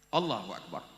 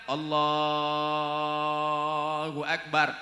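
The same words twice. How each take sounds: First: The phrase is said short and quick. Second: The phrase is drawn out long.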